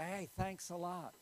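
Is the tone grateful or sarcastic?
grateful. The voice sounds warm and sincerely thankful. The other person did something kind for the speaker. "That means they did something for you"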